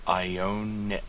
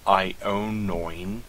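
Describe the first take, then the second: First: "ionion" with separate vowels, ee-oh-nee-on; the correct "ionion", keeping the vowels apart; right way. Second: "ionoin" with the last vowels run together as oin; the mistaken form "ionoin", ending oin; wrong way. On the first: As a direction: demo the correct "ionion" with every vowel sounded. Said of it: "It is ionion". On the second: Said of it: "It is not". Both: Shown as a demonstration.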